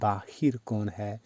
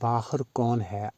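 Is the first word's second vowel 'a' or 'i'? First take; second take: i; a. First: The first word ends with a 'hir' sound. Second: The first word ends with a 'har' sound. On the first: The speaker calls it wrong. "अक्सरियत बाहिर पढ़ती या बोलती है" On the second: The speaker calls it right. "इस लफ्ज़ का दुरुस्त तलफ़्फ़ुज़ बाहर है"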